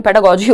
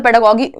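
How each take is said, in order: First: पेडागोजी with a soft g, like English j; usual soft G. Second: पेडागोगी with a hard g in the last syllable; mistaken hard G. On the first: Shown as a demonstration. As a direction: say पेडागोजी ending in "jee". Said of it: "पेडागोजी होता है normally". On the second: Real, not acted. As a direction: say पेडागोगी ending in "gee" as in geese. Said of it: "उल्टा ही बोल दिया मैंने".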